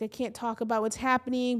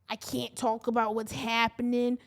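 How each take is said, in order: First: It is said in the speaker's ordinary accent. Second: It is said in a put-on Boston accent.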